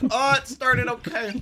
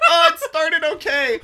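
First: Laughing. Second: Laughing, voice pitched up; giggling out the words; laughing through words. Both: Real, not acted.

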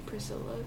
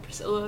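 First: Shy near-whisper of own name; very quiet. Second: Said in the usual way. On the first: Retold or imitated. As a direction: say your name so softly they can't hear. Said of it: "I said so quietly".

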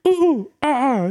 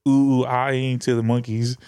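First: High, loud monkey hoots; monkey calls, loud. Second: Monkey calls, low key. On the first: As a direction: hoot up high like an ape. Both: Retold or imitated. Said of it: "we was like".

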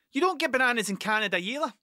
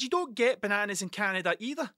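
First: Fired back fast and a bit louder; quick comeback to the Canadian; quick retort. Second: Said in the usual way. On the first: Retold or imitated. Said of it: "That's what I said". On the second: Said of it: "I said".

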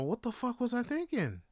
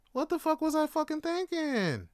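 First: Raised pitch, falling away at the end; exasperated self-reproach. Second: Escalated exasperation. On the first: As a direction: ask yourself in rueful disbelief. Exasperated at own past decision. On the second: Repeats self-reproach, escalating. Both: Real, not acted.

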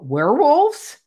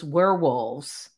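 First: High, loud rise on WEREWOLVES; mock-surprised WEREWOLVES with a big questioning lift. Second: WEREWOLVES slow and low-key, in confirmation; understated, unhurried WEREWOLVES without astonishment; matter-of-fact confirmation. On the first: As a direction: retell it as an astonished question, WEREWOLVES swooping upward. She questions, he confirms. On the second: Retold or imitated. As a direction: retell it as an unruffled answer, drawing out WEREWOLVES. He calmly confirms her question.

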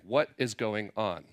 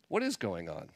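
First: Slow, spaced question leaning on WHAT; WHAT stressed, unhurried delivery. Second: IS stressed, in a softer, lower voice; lower, quieter question hinging on IS. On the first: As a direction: lean on WHAT, each word drawn out. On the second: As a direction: lean on IS, dropping pitch and volume. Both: Shown as a demonstration. Question repeated with shifted stress.

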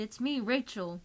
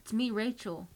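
First: Pleading. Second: Frightened plea. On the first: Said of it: "she pleaded". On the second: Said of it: "she cried". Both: A narrator's reading.

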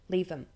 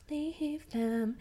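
First: Said in the usual way. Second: High emphatic. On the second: Real, not acted. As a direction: Leave them pitched very high. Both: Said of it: "repeated advice".

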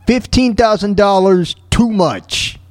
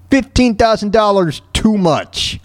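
The two takes are said the same way.

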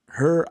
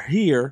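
First: "her" as a dialect form of here; dialect pronunciation. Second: Said in the usual way. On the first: Shown as a demonstration. Speaker showing two ways to say one word, dialect "her". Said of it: "it's the same word". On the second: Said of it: "no correct way to say it".

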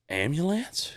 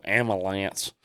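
First: AMBULANCE as am-yuh-lance, rising; "ambulance" said am-yuh-lance as a question; correcting ambulance. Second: AMBULANCE as am-uh-lance, slow and low; "ambulance" drawn out without the yuh; mistaken ambulance, insisted. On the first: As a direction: ask "ambulance" with a yuh in the middle. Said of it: "Oh, you mean ambulance?". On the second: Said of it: "He said, No, ambulance". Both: Retold or imitated.

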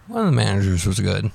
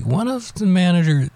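First: Said in the usual way. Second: First take pitched well up, then dropped; high start. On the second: Real, not acted. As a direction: begin the phrase high and set it aside. Restarts sentence, first take high.

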